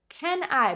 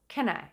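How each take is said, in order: First: The words are said fully and clearly. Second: The words are reduced and said quickly.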